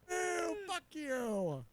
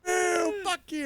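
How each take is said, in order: First: It is said at a normal, quieter volume. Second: It is said more loudly.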